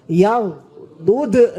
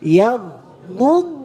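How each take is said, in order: First: The final consonant is released with a bounce. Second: The final consonant is held firmly and longer. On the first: The speaker calls it wrong. "Sebagian anak kita kalau nggak teliti bacanya gini" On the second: The speaker calls it right. "Dipegang agak kenceng, agak lama dikit"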